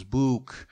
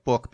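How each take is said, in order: First: "book" with a long oo, like "boook"; Scouse elongated vowel. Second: Said in the usual way. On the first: Shown as a demonstration. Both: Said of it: "they often elongate the vowels".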